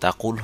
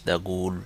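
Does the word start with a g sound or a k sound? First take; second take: k sound; g sound. First: The word begins with a k-like sound. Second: The word begins with a g sound. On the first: This is the standard Arabic form. "Standard অ্যারাবিকে কাফের উচ্চারণ আহ, তাকুল হতো" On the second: This is the Saudi dialect form. "কিন্তু সৌদি ডায়ালেক্টে এশ তাগুল"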